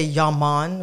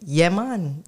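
First: "Yeah, man" with Yeah said as an open "yah", in a light Rastafarian imitation; outsider's Yeah man. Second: "Yeah, man" with Yeah said as "yeh", a short e sound as in Y E A; "Yeah, man" the local way, "yeh man"; real Jamaican Yeah man. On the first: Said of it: "But we don't say". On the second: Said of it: "We say". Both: Shown as a demonstration.

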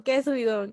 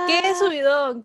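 First: Said in the usual way. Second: Excited. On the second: Real, not acted. Celebrating end of semester.

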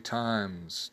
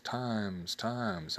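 First: Said in the usual way. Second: Softer fading echo repeats; word bouncing back softly. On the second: Shown as a demonstration. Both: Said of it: "the echo repeats only the last word".

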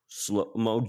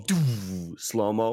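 First: Said in the usual way. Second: Slow-mo drawn out very slowly; slow-motion speech. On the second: Shown as a demonstration. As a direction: stretch the words like a slow-motion shot. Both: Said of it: "I can just do".

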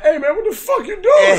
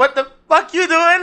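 First: High, loud mock shout; retold angry outburst. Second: Slow, high-pitched mock protest; drawn-out mock outburst. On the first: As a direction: shout it like an outraged Michael J. Fox retold. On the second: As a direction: stretch out the outraged question, playing it for laughs. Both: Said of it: "Or more like".

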